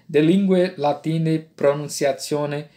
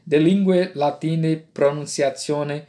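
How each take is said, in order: First: It uses the Italian-style church Latin pronunciation. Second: It uses the Italian-style church Latin pronunciation.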